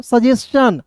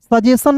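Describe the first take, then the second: First: "सजेशन" ending in "s-chan"; correct reading. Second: "सजेशन" ending in plain "san"; wrong reading. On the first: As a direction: sound a ch near the end of "सजेशन". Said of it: "क्या होता है दोस्तों?". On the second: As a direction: leave the ch out of "सजेशन". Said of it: "सजेशन नहीं". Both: Shown as a demonstration.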